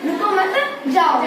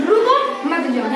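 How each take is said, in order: First: Slower, रुको मत together, pause, then जाओ; pause after मत. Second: रुको held, pause, then मत जाओ together; pause after रुको. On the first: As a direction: run रुको into मत and set जाओ apart. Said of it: "इसका अर्थ क्या निकलेगा?". ("रुको मत" एक साथ, ठहराव, फिर "जाओ") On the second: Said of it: "यहाँ से आगे मत जाओ". (रुको के बाद ठहराव, फिर "मत जाओ" एक साथ) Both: Shown as a demonstration.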